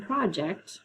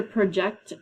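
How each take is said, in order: First: "project" as PRAH-ject; stress on first syllable. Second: "project" as pruh-JECT; stress on second syllable. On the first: Teacher pointing to the word pair, "project" stressed PRAH-ject. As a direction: put the weight on the start of "project": PRAH-ject. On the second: Teacher pointing to the word pair, "project" stressed pruh-JECT. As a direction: put the weight on the end of "project": pruh-JECT. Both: Shown as a demonstration. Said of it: "they're pronounced differently".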